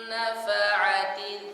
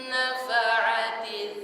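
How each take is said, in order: No difference in how they are said.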